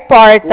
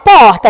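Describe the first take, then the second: First: The R is strong and clearly sounded. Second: The R is soft, nearly dropped. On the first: This is how people in the local São Paulo region say it. "aqui é porta" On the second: This is how people from Minas say it. "eu falo porta, sem o R"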